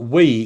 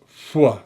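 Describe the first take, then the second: First: It begins with a vowel, no h sound. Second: It begins with a breathy h sound. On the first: The speaker calls it wrong. "It's not" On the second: The speaker calls it right.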